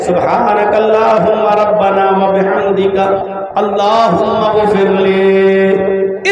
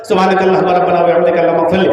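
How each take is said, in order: First: It is said slowly and pleadingly, like begging. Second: It is rattled off mechanically, like rote words.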